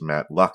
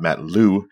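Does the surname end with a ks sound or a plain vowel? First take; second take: ks sound; plain vowel. First: The surname ends with a ks sound. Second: The surname ends on a plain vowel. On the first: The speaker calls it right. "it is Matt Loux" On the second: The speaker calls it wrong. "and not Matt Lou, as I have a tendency to over Canadianly pronounce"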